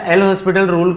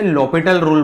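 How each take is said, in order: First: It is said as 'el hospital' with a clear h. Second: It is said as 'lopital' with no h sound. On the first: The speaker calls it wrong. "एल हॉस्पिटल rule मैं जानबूझ के इसलिए बोलता हूँ कि थोड़ा सा तुम लोगों को अजीब लगे" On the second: The speaker calls it right. "Actually बोलते हैं लॉपिटल रूल"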